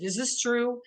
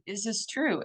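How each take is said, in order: First: A higher, sincere, curious question; genuine, not combative. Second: Said in the usual way. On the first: Shown as a demonstration. Asking yourself honestly, not combatively: gentle and sincere. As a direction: ask it gently, without a fight. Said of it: "in a real genuine way, not in a combative". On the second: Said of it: "in a real genuine way".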